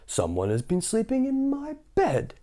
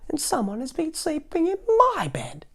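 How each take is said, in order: First: It is said in a deep, big voice. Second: It is said in a small, high voice.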